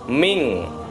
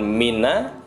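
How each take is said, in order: First: The word ends on a bare n sound. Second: The word ends with an added a vowel. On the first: The speaker calls it right. "n-nya mati" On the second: The speaker calls it wrong. "bukan mina"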